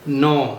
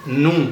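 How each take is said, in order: First: The vowel is an 'oh' sound. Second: The vowel is a rounded 'oo' sound. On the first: The speaker calls it wrong. "ये जो नो आवाज है ये मजहूल आवाज है" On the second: The speaker calls it right. "होंठों को खूब अच्छे से गोल कर लिया नू, तो ये हो गया मारूफ पढ़ना"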